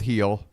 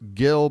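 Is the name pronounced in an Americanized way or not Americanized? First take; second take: not Americanized; Americanized. First: The name is said in a non-Americanized way. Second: The name is said in an Americanized way. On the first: The speaker calls it right. "I'm going with Gil" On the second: The speaker calls it wrong. "that sounds like an American trying to pronounce the name"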